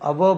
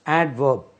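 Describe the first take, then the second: First: The d sound is left out of the word. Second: The d sound is clearly pronounced in the word. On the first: The speaker calls it wrong. "बोलने से अवर्ब अवर्ब हो जाएगा" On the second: The speaker calls it right. "इसमें डी को हम तलफ़ुज़ करेंगे"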